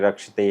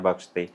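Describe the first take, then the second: First: The word begins with an r sound. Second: The word begins with a b sound. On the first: The speaker calls it right. "Sanskrit का जो उच्चारण है बहुत सही तरीके से होना चाहिए" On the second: The speaker calls it wrong. "अगर कोई र को भ बोल देता है"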